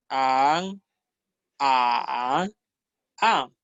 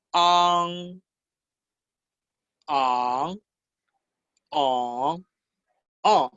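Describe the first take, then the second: First: "an" closed with a plain front n; final N. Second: "An" as ang, ending in a back nasal ng. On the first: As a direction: end "an" on the tongue tip, without the ng ring. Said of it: "Ahora vamos a ver la N". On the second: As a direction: let "An" ring into the nose on a final ng. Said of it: "la diferencia es el sonido nasal". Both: Shown as a demonstration.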